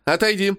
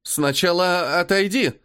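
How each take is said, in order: First: Higher ringing call out. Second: Hesitant, slow repeat; unsure. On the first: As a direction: call out firmly to the boy. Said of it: "звонкий голос Лукерии". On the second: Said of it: "неуверенно повторяет". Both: Acted.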